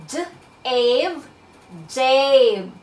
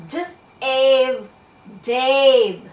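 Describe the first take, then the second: The two takes are said the same way.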